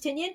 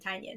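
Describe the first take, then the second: First: The first syllable sounds like 'tin'. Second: The first syllable sounds like 'tiny'. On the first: The speaker calls it wrong. "I used to pronounce his book Tin his book his name Tinian" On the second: The speaker calls it right. "he himself pronounced his name Tynion"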